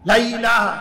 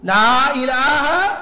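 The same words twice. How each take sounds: First: The vowel of 'la' is short and quick. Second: The vowel of 'la' is held long. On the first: It is a careless, dance-like chant. The speaker calls it wrong. "প্রথমে এরকম ড্যান্সিং জিকির" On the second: It is the properly taught recitation. The speaker calls it right. "লম্বা টান দিতে হবে, তিন আলিফ টান এর উপরে"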